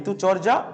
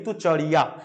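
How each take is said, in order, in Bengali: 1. ঋতুচর্যা শব্দটি বাংলা ধাঁচের উচ্চারণে বলা হয়। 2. ঋতুচর্যা শব্দটি সংস্কৃত ধাঁচের উচ্চারণে বলা হয়। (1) "যখন এটা বাংলায় উচ্চারণ করবে তখন" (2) "কিন্তু সংস্কৃত উচ্চারণ করলে"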